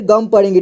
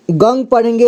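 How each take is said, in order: First: गम with an m ending; गं read as गम. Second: गंग with an ng sound; गं read as गंग. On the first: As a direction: say गम, closing the lips on m. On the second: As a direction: say गंग with a nasal ng ending. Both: Shown as a demonstration. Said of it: "इसका उच्चारण दो तरह से किया जाता है".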